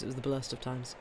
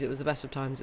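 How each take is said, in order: First: "blurst" said softly in place of best; softer deadpan "blurst of times"; Simpsons misquote. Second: Said in the usual way. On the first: Shown as a demonstration. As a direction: slip "blurst" in with a quiet deadpan. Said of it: "It's a Simpsons reference". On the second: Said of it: "You prefer The Tale of Two Cities".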